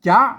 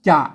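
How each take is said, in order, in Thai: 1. พยางค์นี้ออกเสียงเป็นเสียงจัตวา 2. พยางค์นี้ออกเสียงเป็นเสียงเอก (1) "ต้องอ่านว่าจ๊ะนั่นเสียงจัตวา" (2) "คนทั่วไปมาอ่านว่าจะเสียงเอก"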